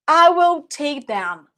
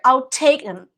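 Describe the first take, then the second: First: It is said slowly. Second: It is said fast.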